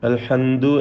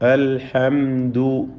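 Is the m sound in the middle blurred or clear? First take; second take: blurred; clear. First: The m sound is blurred, neither m nor n. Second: The m sound is pronounced clearly and distinctly. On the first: The speaker calls it wrong. "അവ്യക്തമായി, മീമും അല്ല നൂനും അല്ല" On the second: The speaker calls it right. "അവിടെ മീമിനെ വെളിവാക്കണം"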